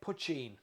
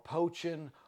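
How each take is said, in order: First: The first vowel is 'uh' as in much. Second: The first vowel is 'oh' as in poach. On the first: The speaker calls it right. "The first is puch, like much, and the second is een, like bean" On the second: The speaker calls it wrong.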